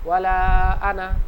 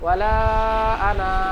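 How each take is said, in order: First: The vowel in ana is said short and quick. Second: The vowel in ana is drawn out long. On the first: The speaker calls it right. "কি বলবো?" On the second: The speaker calls it wrong. "তো আমরা এখানে বলবো না"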